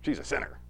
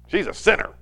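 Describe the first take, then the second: First: Soft, mocking echo of She's a sinner; mock repeat. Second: A hint of a scornful host; lightly voiced judgmental host, pointed; host's sneer. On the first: Pastor echoing the host's words to the congregation, softly mocking. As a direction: quietly hold up She's a sinner for ridicule. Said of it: "It's a funny little statement". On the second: Pastor voicing the host judging the woman, lightly scornful. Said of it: "looking at each other and goes".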